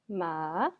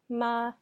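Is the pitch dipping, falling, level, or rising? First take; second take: dipping; level. First: The pitch dips low, then rises again. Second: The pitch stays high and level. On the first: It means horse. "first goes down and then goes up" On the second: It means mother. "The first tone is ma, straight out"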